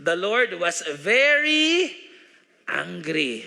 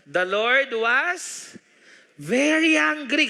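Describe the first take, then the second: First: Slow down and punch very, then let angry fall; stress on very. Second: Very angry drawn out slowly, very pitched up and louder; stress on very angry. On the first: Preacher insisting on the verse for his church, stressing very. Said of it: "Gusto kong diin talaga po yan". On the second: Preacher reading the verse to the church, stretching very angry. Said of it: "hindi lang po basta galit". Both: Real, not acted.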